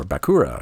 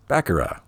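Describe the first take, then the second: First: Bakura as ba-KOO-ra, stress in the middle; alternative pronunciation guess. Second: Bakura as BACK-er-uh, stress up front; first pronunciation guess. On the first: Player offering another reading of Bakura, stressed ba-KOO-ra. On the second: Player trying out the name Bakura, stressed BACK-er-uh. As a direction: say Bakura with a short, reduced middle syllable. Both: Shown as a demonstration. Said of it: "or however it's pronounced".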